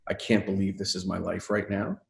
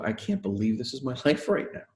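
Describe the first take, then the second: First: The tone sounds dismayed and exasperated. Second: The tone sounds delighted and amazed. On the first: Life feels like an unbearable burden. The speaker calls it wrong. "can we move ourselves from a place of" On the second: Life feels like a fortunate gift. The speaker calls it right. "say it differently"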